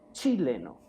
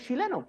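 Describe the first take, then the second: First: It starts with a sharp ch sound. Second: It starts with a soft sh sound. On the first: This is the pronunciation the Academy prescribes. "la pronunciación es con T, C y H" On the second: This is how everyone in Chile actually says it. "todos en Chile decimos"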